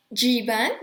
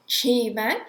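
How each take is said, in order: First: "Jivan" with J pronounced as y; German ya sound. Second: "Jivan" begun with a sh-like sound instead of y; "Jivan" with a slurred sh-like J; her own clumsy J. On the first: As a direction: say "Jivan" as yee-van, the J like a y. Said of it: "la J en alemán suena ya". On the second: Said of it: "en español suena j". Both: Shown as a demonstration.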